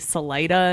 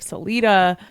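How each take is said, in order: First: It is pronounced the way Colorado locals say it. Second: It is pronounced the way outsiders would say it. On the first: This is how people in the state say the name. "They say Salida" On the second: This is how people elsewhere would expect to say the name. "instead of Salida"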